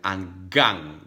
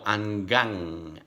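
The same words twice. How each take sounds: First: The ending has a hard, Italian-style g sound. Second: The ending is a soft nasal ng sound. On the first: The speaker calls it wrong. "you will never pronounce like Italian" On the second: The speaker calls it right.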